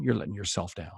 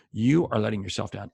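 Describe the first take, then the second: First: Said in the usual way. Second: "are" spelled out and pressed; stress on are. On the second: Shown as a demonstration. Coach correcting salespeople who skip prospecting, stressing "are". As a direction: uncontract it and lean on "are".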